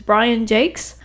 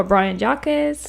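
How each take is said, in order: First: "Brian Jakes", surname as one syllable rhyming with lakes; author's pronunciation. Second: "Brian Jacques", surname as a French name, not "Jakes"; assumed French pronunciation. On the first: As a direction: say "Jakes" with a long A, like "cakes". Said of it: "like it's pronounced Jake's". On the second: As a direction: give "Jacques" the French-looking reading, unlike "Jakes". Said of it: "I always assumed it was Jacques". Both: Shown as a demonstration.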